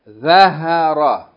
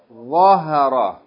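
First: The first consonant is a plain, light sound. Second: The first consonant is an emphatic, heavy sound. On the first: The speaker calls it wrong. "If we was to pronounce it as thal, we would say" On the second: The speaker calls it right. "But here we pronounce it what?"

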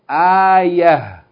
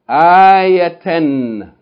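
First: The word ends with a final h sound. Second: The word ends with a final n sound. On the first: The reading stops on this word. "If we stop on it, we're going to say" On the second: The reading continues without stopping. "The first word"

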